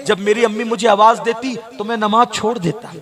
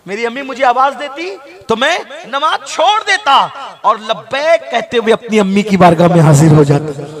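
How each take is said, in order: First: Said in the usual way. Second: Impassioned cry. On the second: Acted. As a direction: repeat the line and throw it out to the crowd. (ऊँची, ज़ोरदार आवाज़ में जोशीला दोहराव) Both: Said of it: "तो आका फरमाते".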